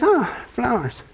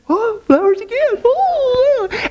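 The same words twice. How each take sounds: First: Slow, flat "Oh, flowers"; "Oh, flowers" said slowly and softly, no thrill at all; unimpressed wife. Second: High, squealing "Oh, flowers again"; "Oh, flowers" squealed high with delight; thrilled wife. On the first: Wife bored by yet another bouquet, slow and deflated. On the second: Wife squealing over the flowers again, very high. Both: Retold or imitated.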